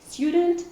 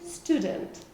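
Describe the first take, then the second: First: A y sound comes before the vowel. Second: No y sound comes before the vowel.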